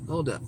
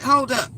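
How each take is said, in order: First: Softer, lower hold up as the word dies down; trailing hold up. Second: Louder, higher HOLD UP to cut him off; sharp hold up. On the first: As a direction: let it drop off quietly. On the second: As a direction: bark it to stop him mid-complaint. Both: Retold or imitated. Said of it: "I said".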